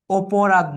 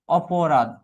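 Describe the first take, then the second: First: অপরাধ with its first অ closed to "o", as in "oporadh"; wrong first vowel. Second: অপরাধ with an open অ, as in "aw-po-radh"; open first vowel. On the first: Teacher shows students the mistake, অপরাধ said with closed o. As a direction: say অপরাধ as "o-po-radh". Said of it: "না, কি হবে?". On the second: Teacher gives students the correct form, অপরাধ with open অ. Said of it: "কি হবে?". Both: Shown as a demonstration.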